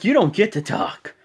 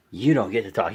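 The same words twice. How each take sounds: First: High, forceful put-down; mock scolding. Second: Said in the usual way. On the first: John Cena imitated telling rival not to talk, forceful. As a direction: silence a rival in an acted voice.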